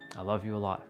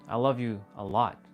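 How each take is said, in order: First: It is said with a hateful tone. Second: It is said with a loving tone.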